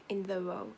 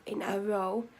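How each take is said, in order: First: Said in the usual way. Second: "a" picked out in a self-correction; emphatic "a", set right; stress on A. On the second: Real, not acted. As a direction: lean on the word "a" to correct the slip. Corrects own slip in phrase.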